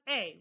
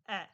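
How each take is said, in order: First: The vowel is a long 'ay' sound. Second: The vowel is a short 'eh' sound. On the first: "It's pronounced A" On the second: "like with a short E"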